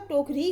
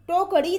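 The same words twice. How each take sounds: First: Said in the usual way. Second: टोकरी with retroflex ṛ, tokaṛi; wrong pronunciation. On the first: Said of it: "टोकरी होता है". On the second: Shown as a demonstration. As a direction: flap the r of टोकरी after an added short a. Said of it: "टोकरी नहीं होता".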